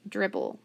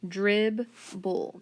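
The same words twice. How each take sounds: First: Said in the usual way. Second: "Dribble" slowly split as drib-bul; sounded out by syllable. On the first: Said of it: "what about our next word". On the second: Shown as a demonstration. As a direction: sound out DRIBBLE in two separate beats. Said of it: "Then on the first part".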